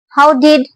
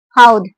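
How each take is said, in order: First: It is said as two full words with a full vowel in the second. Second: It is said as one contracted syllable ending in a d sound.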